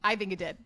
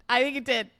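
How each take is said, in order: First: Said in the usual way. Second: A bit higher, insistent repeat; more emphatic. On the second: Shown as a demonstration. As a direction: press the point, teasing.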